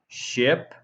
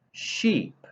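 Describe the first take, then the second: First: "Ship" with a short lax I vowel. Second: "sheep" with a long tense EE vowel, spread lips. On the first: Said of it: "as in ship". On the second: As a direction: stretch the EE in "sheep". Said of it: "as in sheep". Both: Shown as a demonstration.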